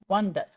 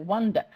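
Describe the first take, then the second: The two takes are said the same way.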